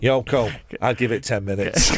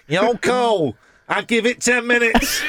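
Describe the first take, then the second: First: Put-on a lightly done Manchester accent, deadpan. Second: Put-on higher Manchester accent breaking into laughter; Manchester accent, laughing. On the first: Host slags off [name] on air in a light Manchester accent. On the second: Host repeats the [name] gag to a co-host in a laughing Manchester accent. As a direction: push the Manchester accent up, cracking up. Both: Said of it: "in that accent".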